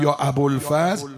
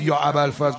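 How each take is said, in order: First: It is pronounced with Persian-style sounds. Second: It is pronounced with Arabic-style sounds. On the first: "این درسته دیگه، شده اسم علم" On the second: "اگه یکی نگفت"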